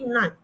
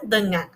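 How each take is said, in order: First: "nan", the first syllable left out; imitating dropped syllable. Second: Said in the usual way. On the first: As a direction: mimic a clipped "nan". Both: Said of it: "akan menjadi".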